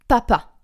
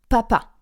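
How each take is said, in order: Both takes have the same delivery.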